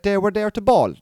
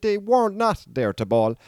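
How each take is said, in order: First: Said in the usual way. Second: Slow correction leaning on "not"; stress on NOT. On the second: Real, not acted. Speaker correcting his own slip, with "not" drawn out and stressed. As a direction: hit "not" hard, higher and slower.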